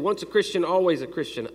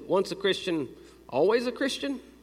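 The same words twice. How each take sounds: First: It is said as a flat statement. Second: It is said as a questioning phrase. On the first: The speaker is telling something. "So I didn't say" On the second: The speaker is asking something. "I'm not telling you something, I'm asking you something"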